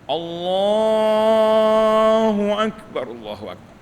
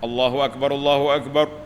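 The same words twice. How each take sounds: First: The words are drawn out long and slow. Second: The words are said quickly without drawing out. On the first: It calls people who are far away. "panjang tarik" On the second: It calls people already in the mosque. "itu dipanggil idraj, maknanya laju"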